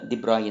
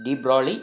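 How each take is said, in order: First: ദി ബ്രോയ് as it is truly pronounced; correct pronunciation. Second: ദി ബ്രോളി said as written, with an L sound; spelling pronunciation. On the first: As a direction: say ദി ബ്രോയ് the proper French way. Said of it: "എന്ന് pronounce ചെയ്യുന്നു". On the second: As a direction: read ദി ബ്രോളി letter by letter as spelt. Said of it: "എന്നാണ് നമ്മൾ എഴുതുന്നത്". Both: Shown as a demonstration.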